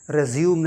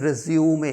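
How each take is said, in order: First: The word ends on an M sound. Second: The word ends on an 'ay' vowel. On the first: The speaker calls it wrong. "रेज्यूम नहीं" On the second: The speaker calls it right.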